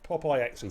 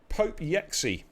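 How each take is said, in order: First: It is read as 'Popeye' plus letters X, C. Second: It is read as 'Pope' plus 'Yexi'. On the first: The speaker calls it right. "Popeye. Yeah, of course it is" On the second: The speaker calls it wrong. "that's my stab"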